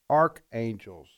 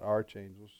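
First: The first part does not sound like 'arches'. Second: The first part sounds like 'arch' in 'arches'. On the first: The speaker calls it right. "Archangels, not archangels" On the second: The speaker calls it wrong. "You're thinking arch enemies"

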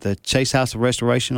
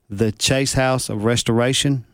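First: It is said at normal conversational speed. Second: It is said very slowly and deliberately.

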